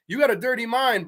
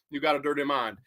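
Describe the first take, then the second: First: Said in the usual way. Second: Low, lightly voiced croon in a singer's style; a hint of the singer, dropped low; impression of a singer. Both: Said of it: "a singer would say".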